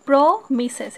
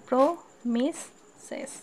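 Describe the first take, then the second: First: "promises" slowed, with a louder first syllable; slow teaching "promises", leaning on প্র; three syllables. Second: "promises" in three pieces with gaps: প্র, মি, সেস; very slow "promises", pausing after each syllable. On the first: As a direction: stretch the প্র of "promises", then finish the other two. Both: Shown as a demonstration. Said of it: "এখানে তিনটা আছে".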